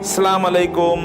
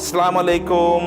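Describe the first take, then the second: No difference in how they are said.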